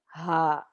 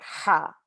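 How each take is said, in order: First: "ha" let out like a sigh. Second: "ha" pushed hard from the throat; a forceful throaty "ha"; fierce ha. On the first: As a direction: breathe "ha" out airy and gentle. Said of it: "This one is more of a sigh". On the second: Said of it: "the other one is that fierce". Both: Shown as a demonstration.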